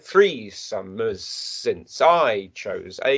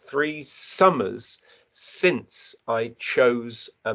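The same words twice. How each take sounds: First: The beats fall on every first syllable. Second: The beats fall on every second syllable. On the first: The speaker calls it wrong. "If you said it the other way around" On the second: The speaker calls it right. "Notice where I place the emphasis"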